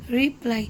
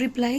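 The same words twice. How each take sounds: First: "reply" in two parts, re - ply; split into syllables. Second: Said in the usual way. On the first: Shown as a demonstration. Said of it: "यहाँ पर दो vowel sound है". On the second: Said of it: "then we will get reply".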